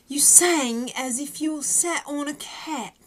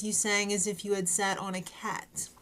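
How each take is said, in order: First: Slow, hammed-up British accent, a bit higher; a terrible fake British accent; bad British accent. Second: Said in the usual way. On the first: Shown as a demonstration. Quoting Simon's line to a singer in bad British accent. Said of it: "that was a horrible British accent". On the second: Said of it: "or if you're a Brit".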